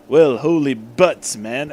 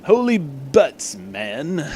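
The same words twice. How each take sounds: First: Slow, lightly put-on blowhard captain; a hint of a pompous hero; Zap Brannigan voice. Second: Slow, drawn-out pompous exclamation; lightly hammed blowhard hero; Zap Brannigan voice. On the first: Arthur exclaiming to Eggman, mild Zap Brannigan voice. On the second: Arthur exclaiming at the doc, mild Zap Brannigan voice. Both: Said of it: "kinda be like Zap Brannigan".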